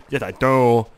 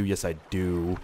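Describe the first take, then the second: First: Sudden loud, silly "Yes, I do"; oddly pushed, louder affirmation; odd goofy emphasis. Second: Said in the usual way. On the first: Real, not acted. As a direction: blurt it out in a goofy voice. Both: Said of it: "Why did I say it like that?".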